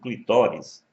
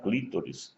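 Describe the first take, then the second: First: The stress is on the second syllable. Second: The stress is on the first syllable. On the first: The speaker calls it right. "o clitóris" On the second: The speaker calls it wrong. "como muita gente pronuncia incorretamente"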